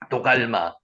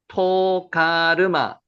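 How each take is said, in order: First: Three syllables, starting with a soft d sound. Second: Four syllables, starting with a strong t sound. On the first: This is the form used in the Korean translation. "도갈마라고 한글에 번역되어 있는" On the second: This is the reading of the Hebrew original. "히브리 원문을 읽으면요"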